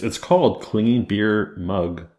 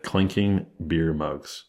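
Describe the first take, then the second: First: "clinging beer mug", the "k" in "clinking" swallowed; mispronounced clinging. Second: "Clinking" said slowly, with a crisp "k" before "-ing"; careful pronunciation. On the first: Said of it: "I thought you said clean". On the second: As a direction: spell out "Clinking" with a clear "k" sound. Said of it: "No, no, no, clinking". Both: Real, not acted.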